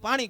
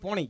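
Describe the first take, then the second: First: The first vowel is an open 'aa' sound. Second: The first vowel is a rounded 'o' sound. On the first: This is how we in Saurashtra say it. "આપણે પીવાનું પાણી કઈ" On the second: This is how North Gujarat speakers say it. "ઈવડાઈ પોણી કે"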